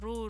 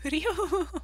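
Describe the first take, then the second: First: It is said without a y glide, as roo. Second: It is said with a y glide, as ryoo. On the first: The speaker calls it wrong. "he was saying Ru" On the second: The speaker calls it right. "no, Ryu"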